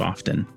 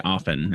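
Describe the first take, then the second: First: The T in the word is pronounced. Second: The T in the word is silent. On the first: "you leave the T in" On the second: "I say often"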